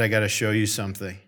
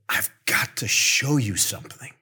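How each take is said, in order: First: It sounds ominous, like bad news is coming. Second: It sounds eager, like exciting news is coming.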